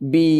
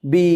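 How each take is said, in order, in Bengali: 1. স্বরধ্বনিটি লম্বা। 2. স্বরধ্বনিটি লম্বা।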